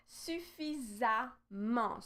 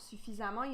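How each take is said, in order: First: SUFFISAMMENT slowly, in separate syllables; slow demonstration. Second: Said in the usual way. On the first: Shown as a demonstration. Teacher shows how the ending is added, slow suffisamment. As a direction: sound out suffisamment piece by piece. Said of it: "Suffisamment, you see how I'm adding". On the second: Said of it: "you see how I'm adding here".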